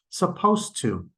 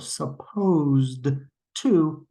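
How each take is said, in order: First: The d sound merges into the t. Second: The d sound is heard before to.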